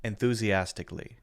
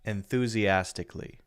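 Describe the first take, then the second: The two takes are said the same way.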